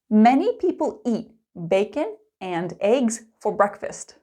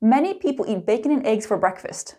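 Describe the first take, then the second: First: It is spoken slowly with every word clear. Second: It is spoken fast with 'and' reduced to n. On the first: "Let's start slow and clear" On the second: "fast and natural"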